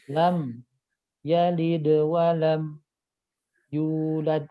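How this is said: The phrase is broken up by small stops. The speaker calls it wrong. "itu jadi kayak ada berhentinya"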